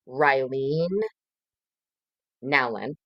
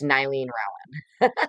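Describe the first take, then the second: First: The first name begins with an R sound. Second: The first name begins with an N sound. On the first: The speaker calls it right. "is actually how you say it" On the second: The speaker calls it wrong. "My brain always wants to say Nylene Rowland"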